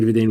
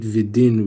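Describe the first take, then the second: First: "vidain" said with a long ai sound, vid-ain; the right reading "vidain", long ai in the last syllable; correct pronunciation. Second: "vidin" said with a short i sound, vid-in; the misreading "vidin", short i in the last syllable; wrong spelling read aloud. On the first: Teacher gives the correct reading "vidain", with a long ai. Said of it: "but he should write". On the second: Teacher shows the wrong reading "vidin", with a short i. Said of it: "he should not write". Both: Shown as a demonstration.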